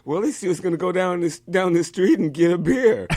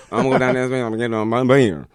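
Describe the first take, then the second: First: High, clearly worded "get a beer"; each word of "get a beer" kept distinct; clear translation. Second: Fast, run-together Southern mumble; slurred rapid Texan gibberish; Boomhauer. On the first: Shown as a demonstration. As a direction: spell out "down the street and get a beer" intelligibly. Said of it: "we knew exactly what he said". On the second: Retold or imitated. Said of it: "even the Boomhauser thing".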